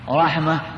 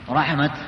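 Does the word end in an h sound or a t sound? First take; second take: h sound; t sound. First: The word ends with a soft h sound. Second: The word ends with a clear t sound. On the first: The word is written with a closed (round) ta. "الوقف بالهاء" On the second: The word is written with an open ta. "وإذا كان مفتوحة"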